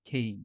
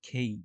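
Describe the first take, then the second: Both takes have the same delivery.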